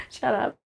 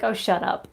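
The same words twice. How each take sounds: First: Said in the usual way. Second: Laughing through a playful shut up; amused brush-off; laughing retort. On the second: Real, not acted. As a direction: toss it off mid-laugh. Mock retort to heat complainers.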